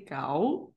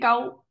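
First: The word is said on a lower pitch. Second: The word is said on a high pitch. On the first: It names the intended thing. The speaker calls it right. "say cow" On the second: It names a different thing. The speaker calls it wrong. "Never go high pitch because that means panders. So yeah, don't say cow"

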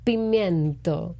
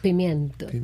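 First: The word is said slowly and drawn out. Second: The word is said at normal speed.

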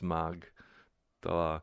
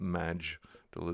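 First: The G is hard, as in go. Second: The G is soft, like a J sound. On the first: The speaker calls it right. "that line over the G is a hard G" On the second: The speaker calls it wrong. "not a soft G. It's not Magdala"

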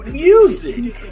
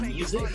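First: The first vowel is stretched out long. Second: The first vowel is short and plain. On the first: The speaker calls it right. "You have to put emphasis on that you" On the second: The speaker calls it wrong. "It's not music"

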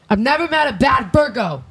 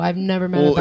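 First: It is said loudly with strong conviction. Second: It is said in a plain, casual voice.

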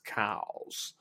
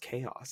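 First: It is said as one syllable, like cows. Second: It is said with two syllables, kay-oss. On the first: "they pronounce it cows" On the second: "It's spelled chaos"

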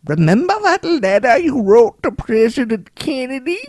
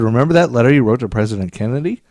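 First: It is said in a put-on character voice. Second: It is said in the speaker's normal voice.

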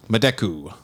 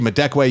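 First: The name ends with a plain 'koo' sound. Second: The name ends with a 'kway' sound. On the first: The speaker calls it wrong. "I hope I'm saying that right" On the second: The speaker calls it right. "Madekwe is how you say his name"

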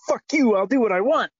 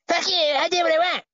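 First: It is said in the speaker's own voice. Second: It is said in a Cartman impression voice.

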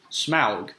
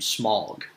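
First: The vowel is an 'ow' sound like 'cow'. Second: The vowel is a short 'o' like 'smog'. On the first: The speaker calls it right. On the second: The speaker calls it wrong. "it sounds like S-M-O-G in English. It's not really correct"

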